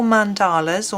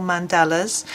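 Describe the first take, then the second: First: "Mandalas" said with a long ah in the middle; first pronunciation. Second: "Mandalas" said with a short middle vowel; alternative pronunciation. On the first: Reading the book title, "Mandalas" with a long middle ah. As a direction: say "Mandalas" as man-DAH-luz. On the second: Offering viewers another way, "Mandalas" with a short middle vowel. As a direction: say "Mandalas" as man-DAL-uz. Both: Shown as a demonstration. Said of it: "or Mandalas".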